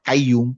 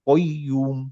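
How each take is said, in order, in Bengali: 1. এটা একটা সাধারণ, সামনের দিকের k ধ্বনি দিয়ে শুরু হয়। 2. এটা একটা গভীর, গলার ভেতর থেকে আসা q ধ্বনি দিয়ে শুরু হয়। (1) "নট কাইয়ুম" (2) "এটা হচ্ছে কফ"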